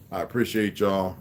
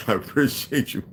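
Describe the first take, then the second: First: Said in the usual way. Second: High-pitched mimicry of his own sign-off; mocking self-imitation. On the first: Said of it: "What's that? What's like?". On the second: Streamer mocking how he just thanked viewers, high-pitched mimicry. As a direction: parody yourself, pitched high and louder. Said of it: "What's like?".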